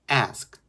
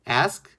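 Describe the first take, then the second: First: The word ends with a very light t sound. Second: The same.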